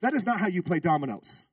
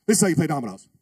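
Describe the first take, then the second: First: Said in the usual way. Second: This punched loud, then a falling line; stress on This. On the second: Shown as a demonstration. Preacher to congregation, stressing This loudly. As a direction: hit the word This hard, as the right way.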